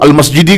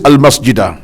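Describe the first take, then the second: First: The word ends with an 'ee' vowel. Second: The word ends with an 'ah' vowel. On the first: The speaker calls it wrong. "Yang tulis tu al-masjidi kan?" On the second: The speaker calls it right. "Tulis al-masjida"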